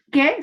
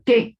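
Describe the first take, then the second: First: ¿Qué? asked with a sharp high rise; teacher shows the emphatic ¿Qué? as a question. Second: Said in the usual way. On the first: Shown as a demonstration. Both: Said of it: "Se puede escribir con tilde y sin tilde".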